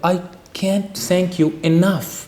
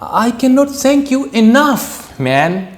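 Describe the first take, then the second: First: It is said in a sad mood. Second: It is said in an excited mood.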